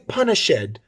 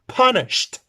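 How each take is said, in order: First: The ending is an extra syllable, like id. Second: The ending is a plain t sound. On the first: The speaker calls it wrong. "you use id for everything and it's not like that" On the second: The speaker calls it right. "Punished with T because it's unvoiced"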